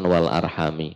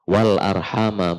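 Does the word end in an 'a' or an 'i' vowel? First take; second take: i; a. First: The word ends with a final 'i' vowel. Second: The word ends with a final 'a' vowel. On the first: This is the reading of another reciter tradition. "bukan وَالْأَرْحَامِ" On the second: This is the reading of one reciter tradition. "Kalau asim, وَالْأَرْحَامَ"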